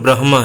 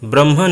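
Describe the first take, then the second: First: The h sound comes before the final m. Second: The h sound comes after the m. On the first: The speaker calls it right. "इसका उच्चारण ब्रह्म है" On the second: The speaker calls it wrong. "ब्रह्म नहीं है"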